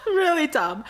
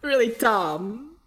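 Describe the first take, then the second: First: Really dumb said higher through a laugh. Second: Really dumb drawn out slowly; slow emphasis. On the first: Repeats while laughing. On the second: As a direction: stretch out really dumb to stress it. Confessing a silly mistake. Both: Real, not acted.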